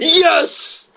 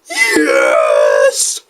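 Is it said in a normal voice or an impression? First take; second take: normal; impression. First: It is said in a normal voice. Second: It is said as an M. Bison impression.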